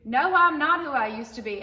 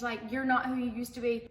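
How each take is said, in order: First: Louder, firm rebuttal with weight; emphatic reply. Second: Said in the usual way. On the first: Real, not acted. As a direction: push back on the comment proudly. Answering commenters, emphatic. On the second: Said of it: "People say".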